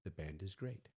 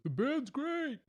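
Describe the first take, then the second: First: It is spoken at normal volume. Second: It is yelled loudly. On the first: The speaker calls it right. "just speak normally" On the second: The speaker calls it wrong. "you're yelling in your friend's ear"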